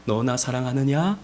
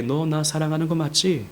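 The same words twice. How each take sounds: First: Low, soft, tender question; hushed affectionate asking, acted; warm, kind. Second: Soft question at an everyday pitch; quiet, slightly less tender asking; mildly kind. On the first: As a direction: ask very gently, with affection. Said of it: "따뜻하게". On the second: Retold or imitated. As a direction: ask gently but matter-of-factly. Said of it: "이것도 좀 덜 친절하신 것 같아요".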